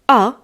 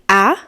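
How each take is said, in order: First: The vowel sounds like the one in father. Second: The vowel sounds like the one in apple. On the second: "apple, like a"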